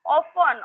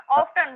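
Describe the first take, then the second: First: OFTEN with a silent T; alternative pronunciation. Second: OFTEN with the T sounded; alternative pronunciation. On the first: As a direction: say OFTEN as "offen". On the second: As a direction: say OFTEN as "off-ten". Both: Shown as a demonstration. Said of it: "both are okay".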